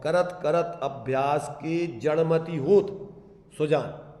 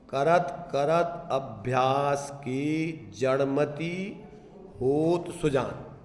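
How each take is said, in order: First: Slow recital with जड़मति होत run together, then a break before Sujan; pause after होत. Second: Slow recital, breaking after जड़मति, with होत Sujan as one phrase; pause before होत Sujan. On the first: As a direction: join जड़मति होत, pause, let Sujan fall alone. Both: Shown as a demonstration. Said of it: "इधर comma लगाओ, इधर से बोलो".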